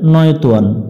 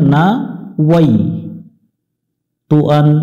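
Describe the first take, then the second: First: The first word is squeezed into a short 'noy'. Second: The first word is spread into 'na-wai' syllables. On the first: The speaker calls it wrong. "এখানে অনেকজন ভুল করে" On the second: The speaker calls it right. "এখানে পড়তে হবে"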